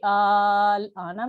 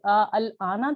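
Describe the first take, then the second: First: The hamzas merge into one long vowel. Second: Both hamza sounds are pronounced separately. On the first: The second hamza is replaced by a long vowel. "तो ये आल आना बन गया" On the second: This is the original form before the rule. "आ अल आना था"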